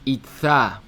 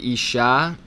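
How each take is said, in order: First: The middle consonant is a lisped th sound. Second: The middle consonant is a hissing s sound. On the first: "you're lisping as if you burned your mouth and your tongue" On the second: "You're trying to say isha"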